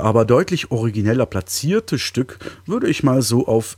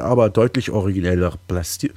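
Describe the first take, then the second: First: Said in the usual way. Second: Throat catching mid-word; frog in throat. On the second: Real, not acted. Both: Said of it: "ich hab was im Hals".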